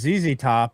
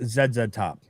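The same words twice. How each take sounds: First: The letters are said as zee. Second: The letters are said as zed. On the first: This is the version one person rejects. "Sean is convinced it's not" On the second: This is the version one person insists on.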